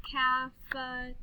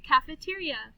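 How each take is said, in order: First: Stretched-out "Caf-e-te-ri-a"; clapped syllables. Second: Said in the usual way. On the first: Shown as a demonstration. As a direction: break "Cafeteria" into five level beats. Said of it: "then we'll clap the syllables". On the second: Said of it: "listen to these words".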